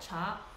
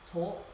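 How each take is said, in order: First: It is said the Mandarin way, like 'cha'. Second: It is said the dialect way, like 'cuo'. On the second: "My dialect, Cantonese"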